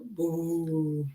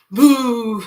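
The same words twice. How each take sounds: First: Creepy quiet boo. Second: Loud boo; startling boo. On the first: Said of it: "you should be a little scared". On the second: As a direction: shout boo to give a fright. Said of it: "And then". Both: Shown as a demonstration.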